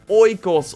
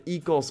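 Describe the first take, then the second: First: The first vowel sounds like 'oy'. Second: The first vowel sounds like 'ee'. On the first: "I first always said Oikos" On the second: "I will stick with Ecos"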